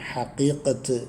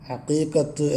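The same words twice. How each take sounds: First: The word begins with a breathy h sound. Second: The word begins with a throaty ain sound. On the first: The speaker calls it wrong. "ഹാ കൊണ്ട് ഉച്ചരിക്കലുണ്ട്. അത് തെറ്റാണ്" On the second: The speaker calls it right. "ഹഖീഖത്ത് എന്നാണ് പറയൽ"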